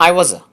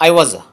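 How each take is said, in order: No difference in how they are said.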